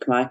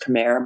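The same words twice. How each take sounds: First: Khmer is said the native-style way. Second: Khmer is said the common English way. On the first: This is the proper pronunciation. The speaker calls it right. "it's actually Khmer" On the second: This is how most people say it. The speaker calls it wrong. "everybody says Khmer"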